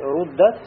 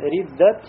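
First: The first vowel is u. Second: The first vowel is i. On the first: This is the usual reading. "вместо того, чтобы сказать руддат" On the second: This is a rare reading. "сказали риддат илейна"

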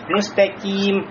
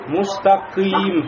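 First: A light, fronted k like kaf before the vowel. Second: A deep q followed by a dull, backed vowel. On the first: "сделать лишний тартык и сказать «мустаким»... как будто «кяф»" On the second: "нельзя допустить «кы»... это будет ошибкой"

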